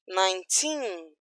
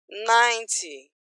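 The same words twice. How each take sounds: First: Put-on nineteen with the final TEEN drawn out; "nineteen", long stressed ending. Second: Ninety with NINE drawn out, weak TY; "ninety", strong start fading off; stress on NINE. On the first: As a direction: slowly lean on the second syllable of "nineteen". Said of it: "tem força pra ir até o final". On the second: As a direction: slowly lean on the first syllable of "ninety". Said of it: "a energia acaba no começo". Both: Shown as a demonstration.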